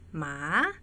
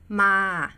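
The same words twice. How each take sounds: First: The pitch dips and then rises. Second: The pitch stays level and mid. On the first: It means dog. "it becomes a dog. That is rising tone" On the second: It means to come. "which is to come"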